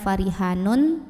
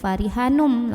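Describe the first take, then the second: First: The ending keeps a clear n sound. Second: The ending merges into a held m sound. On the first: The speaker calls it wrong. "bukan farihanun" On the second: The speaker calls it right. "tapi farihanum, langsung ke m"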